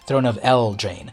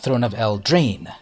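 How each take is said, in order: First: The stress is on the first syllable of Eldraine. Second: The stress is on the second syllable of Eldraine. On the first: "I put the emphasis on the first syllable" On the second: "the emphasis on the second syllable"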